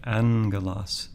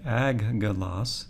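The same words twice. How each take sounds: First: "angelos" with N before hard G; corrected reading "angelos", N replacing the first G; N-sound pronunciation. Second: "aggelos" with a G sound in place of N; double-G pronunciation. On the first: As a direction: say "angelos" as AN-ge-los, first gamma as N. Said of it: "we would just say angelos". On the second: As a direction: say "aggelos" as AG-ge-los, both gammas hard G. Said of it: "rather than say aggelos". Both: Shown as a demonstration.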